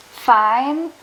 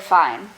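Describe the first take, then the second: First: "fine" with the vowel stretched very long; drawn-out "fine". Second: Said in the usual way. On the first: Retold or imitated. Joking with a date over text, drawn-out "fine". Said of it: "With, like, a lot of I's". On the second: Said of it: "with one I".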